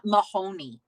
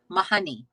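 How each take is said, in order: First: Said in the usual way. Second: "Mahoney" said ma-HUN-ee with a short uh vowel; Irish pronunciation. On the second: Shown as a demonstration. Streamer showing chat how the Irish say "Mahoney", ma-HUN-ee. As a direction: say "Mahoney" as ma-HUN-ee, not ma-HOE-nee. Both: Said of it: "the emphasis is different".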